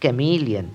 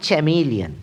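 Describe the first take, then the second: First: ক্যামেলিয়ান starting with a hard "k"; correct pronunciation. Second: চ্যামেলিয়ান starting with a "ch" sound; wrong চ্যামেলিয়ান, CH at the start; wrong pronunciation. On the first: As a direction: say the right ক্যামেলিয়ান with K. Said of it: "সঠিক উচ্চারণটি হবে". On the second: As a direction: mistaken চ্যামেলিয়ান with CH. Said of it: "কিন্তু এটি ঠিক নয়". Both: Shown as a demonstration.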